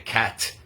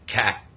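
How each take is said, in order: First: The final T is released with a puff of air. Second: The final T is stopped without releasing air. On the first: The speaker calls it wrong. "We don't say" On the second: The speaker calls it right. "we stop it before we let the air out"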